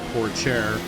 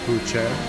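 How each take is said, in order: First: The R sounds in the name are pronounced. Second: The R sounds in the name are silent. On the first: "they're pronouncing it Pourchaire" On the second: "because I thought the R's were silent"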